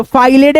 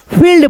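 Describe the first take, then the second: First: फाइलेड with "ai" and an added "e", "fai-led"; wrong reading. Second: फील्ड as one syllable with a long "ee"; correct reading. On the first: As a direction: misread field as फाइलेड. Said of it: "नहीं पढ़ेंगे". (फाइलेड, गलत उच्चारण) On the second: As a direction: say फील्ड with long ee, no extra vowel. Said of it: "फील्ड पढ़ेंगे". (फील्ड, बड़ी ई के साथ) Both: Shown as a demonstration.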